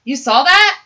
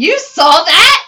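First: Said in the usual way. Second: Drawn-out, louder disbelief; slow amazed question. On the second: Retold or imitated. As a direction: stretch it out in disbelief. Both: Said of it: "He goes".

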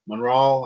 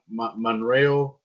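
First: "Monreal" with the last syllable like "rahl"; corrected pronunciation. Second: "Monreal" slowly, with the last syllable like "rail"; first pronunciation attempt. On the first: Host correcting a cast member's surname, "Monreal" ending in an open "ah". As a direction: say "Monreal" as mun-RAHL, in one go. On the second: Host trying out a cast member's surname, halting first attempt at "Monreal". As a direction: stumble into "Monreal", drawn out, ending in an "ay-l" sound. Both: Real, not acted. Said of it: "I guess is how you pronounce it".

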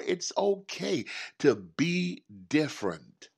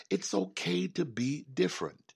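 First: "It's okay to be different" said slowly, leaning on "okay"; slow emphatic affirmation. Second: Said in the usual way. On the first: Real, not acted. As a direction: stretch out "okay" so it sinks in. Repeated affirmation, slowed.

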